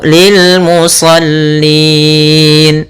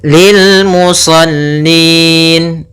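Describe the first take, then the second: First: The long vowel is held for four beats. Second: The long vowel is held for two beats. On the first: "atau lil musallin empat" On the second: "Boleh kita baca lil musallin dua"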